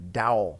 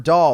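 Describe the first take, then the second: First: "Dowel" in two syllables, DOW-ul; mispronounced doll. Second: Said in the usual way. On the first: Retold or imitated. Mocking how Waka says doll, mispronounced as "Dowel". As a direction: say doll wrongly as "Dowel", rhyming with towel. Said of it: "because he pronounces doll". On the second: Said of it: "he pronounces doll, like the word doll".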